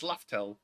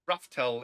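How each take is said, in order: First: The name begins with an L sound. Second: The name begins with an R sound. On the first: This is the intended name. The speaker calls it right. "it's Laftel" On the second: This is the mistranslated name. The speaker calls it wrong. "so it's not Raftel"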